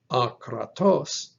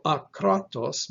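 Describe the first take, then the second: First: Akratos with the accent on final TOS; a-kra-TOS, leaning on the end of Akratos; stress on last syllable. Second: Akratos with the accent on KRA; a-KRA-tos, leaning on the middle of akratos; stress on middle syllable. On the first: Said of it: "with the emphasis on the last syllable". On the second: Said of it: "from the middle syllable to the last syllable". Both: Shown as a demonstration.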